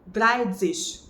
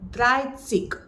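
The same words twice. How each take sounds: First: The middle consonant is a ts sound. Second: The middle consonant is a plain s sound. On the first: The speaker calls it wrong. "not dreißig" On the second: The speaker calls it right. "The number thirty in German is dreißig"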